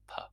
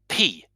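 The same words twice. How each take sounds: First: The P has almost no puff of air. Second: The P has a strong puff of air. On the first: This is how French speakers say it. "in French they don't use that strong puff of air. It's more of a P" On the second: This is how English speakers say it. "English speakers tend to make a strong puff of air when they say the letter P"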